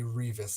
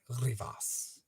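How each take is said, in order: First: The name is said with an English-style pronunciation. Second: The name is said with a Spanish-style pronunciation. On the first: The speaker calls it wrong. "It's like an Anglo thing to say Revis" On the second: The speaker calls it right.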